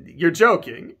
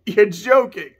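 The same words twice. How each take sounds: First: Said in the usual way. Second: Second take pushed louder; louder disbelief. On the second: Acted. Kuja refusing to believe his death sentence, louder. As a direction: repeat it with more disbelief. Acting Kuja's disbelief scene.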